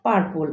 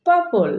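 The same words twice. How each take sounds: First: "পার্পল" with the first r sounded; common mispronunciation. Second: "পার্পল" said pa-pol, r silent; correct pronunciation. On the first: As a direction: say পার্পল with a clear r before the second p. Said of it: "ভুল উচ্চারণ করে থাকি". ("পার্পল" র-সহ ভুল উচ্চারণ) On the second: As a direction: drop the r in পার্পল. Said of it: "but correct pronunciation হবে". ("পার্পল" র ছাড়া শুদ্ধ উচ্চারণ) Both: Shown as a demonstration.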